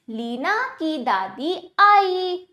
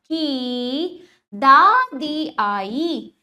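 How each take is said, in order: First: Leena की दादी आई joined, a little slow; measured model reading, आई held at the end. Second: Very slow, stretched की दादी आई; word-by-word classroom model of दादी आई; slow demonstration reading. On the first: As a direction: read Leena की दादी आई as one connected sentence. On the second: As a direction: hold each long vowel in दादी आई. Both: Shown as a demonstration. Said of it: "अब वाक्यों का उच्चारण करते हैं".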